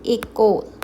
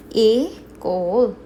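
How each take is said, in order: First: Said in the usual way. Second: École slow and loud, split as ay, kol; drawn-out teaching École, ay then kol; slow syllable breakdown. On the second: Shown as a demonstration. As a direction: stretch École into two separate syllables. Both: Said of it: "How we going to pronounce".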